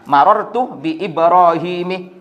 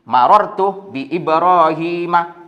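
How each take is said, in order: First: The name ends with an 'i' vowel. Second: The name ends with an 'a' vowel. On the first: The speaker calls it wrong. "tidak boleh seperti itu" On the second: The speaker calls it right. "tanda jarnya fathah, tidak dengan kasroh"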